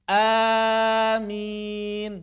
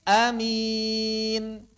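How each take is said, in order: First: The first vowel is long and open. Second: The first vowel is short and open. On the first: "hamzahnya mad tanpa tasdid" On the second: "hamzahnya qasar tanpa tasdid juga tentu"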